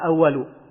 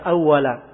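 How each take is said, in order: First: The word ends with a 'u' vowel. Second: The word ends with an 'a' vowel. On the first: It implies the pen was created first. The speaker calls it wrong. "bukan dibaca awalu" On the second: It describes a state, not necessarily what came first. The speaker calls it right. "itu saya baca awala"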